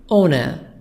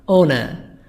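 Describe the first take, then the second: Both takes have the same delivery.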